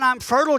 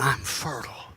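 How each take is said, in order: First: Said in the usual way. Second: Much lower and softer, a hushed come-hither "I'm fertile."; low sultry murmur.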